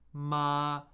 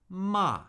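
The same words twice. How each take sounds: First: The pitch stays high and level. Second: The pitch falls sharply from high to low.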